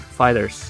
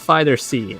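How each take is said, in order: First: The final Z is a plain ending sound. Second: The final Z is said as a separate letter. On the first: The speaker calls it right. "It's pronounced as Fighters" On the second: The speaker calls it wrong. "it's not Fighter C, like some people claim it to be"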